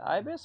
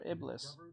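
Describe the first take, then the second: First: The word is said without an L sound. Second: The word is said with an L sound. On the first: The speaker calls it right. "I guess the computer said it right. Ibis" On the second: The speaker calls it wrong. "I've been saying it wrong this entire time"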